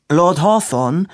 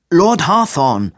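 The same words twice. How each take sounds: First: Raised high and loud, calling for attention. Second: Slow, loud, high exasperated shout; losing patience. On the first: Robin loudly interrupting Hawthorne to get his attention. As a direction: cut in loudly with the name. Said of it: "sagte Robin laut". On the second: Robin, fed up, shouting at Hawthorne in loud exasperation. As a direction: snap his name out, patience gone. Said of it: "Robin riss nun wirklich der Geduldsfaden". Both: A narrator's reading.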